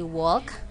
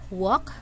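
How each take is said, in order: First: The L sound is pronounced in the word. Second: The L sound is left out of the word. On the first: The speaker calls it wrong. "we're not going to say walk" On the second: The speaker calls it right. "but we say walk, Letter L is silent"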